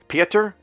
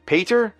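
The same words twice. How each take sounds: First: "Pieter?" as PEE-ter, higher and questioning; unsure pronunciation. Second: "Pater?" as PAY-ter, high and questioning; alternative pronunciation. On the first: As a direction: test "Pieter?" with a long ee, rising. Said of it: "I probably got that wrong". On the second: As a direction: test "Pater?" with an ay vowel, rising. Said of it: "I'm just gonna try Pater". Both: Real, not acted.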